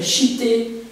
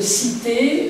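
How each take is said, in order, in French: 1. Le mot commence par un son 'sh'. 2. Le mot commence par un son 's'. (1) "chité en picard" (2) "cité euh, en, en, comment dire, en, en français"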